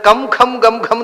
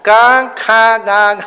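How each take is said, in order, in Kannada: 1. ಪ್ರತಿ ಉಚ್ಚಾರಾಂಶವೂ ಪೂರ್ಣ ಮ್ ಧ್ವನಿಯಲ್ಲಿ ಕೊನೆಗೊಳ್ಳುತ್ತದೆ. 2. ಪ್ರತಿ ಉಚ್ಚಾರಾಂಶವೂ ಮುಚ್ಚುವ ಮ್ ಇಲ್ಲದೆ ಅನುನಾಸಿಕವಾಗುತ್ತದೆ. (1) "ಅಂತ ಓದೋದಲ್ಲ" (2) "ಮೂಗಿನಲ್ಲಿ ಓದಬೇಕು"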